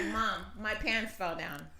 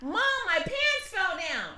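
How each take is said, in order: First: Put-on slow flat kid voice; calm, no alarm at all; lightly voiced deadpan son; flat deadpan child. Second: Put-on higher, urgent kid voice; the panicked way he did not say it; mock alarmed version of the son; alarmed child. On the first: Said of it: "That's exactly what he was like". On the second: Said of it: "He wasn't like".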